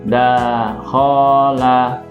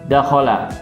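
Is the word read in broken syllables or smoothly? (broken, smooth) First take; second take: broken; smooth. First: Each syllable is separated by a short break. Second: The syllables flow together without any break. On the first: The speaker calls it wrong. "ini tolong uh, dihentikan" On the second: The speaker calls it right. "sesuai dengan bacaan yang benar"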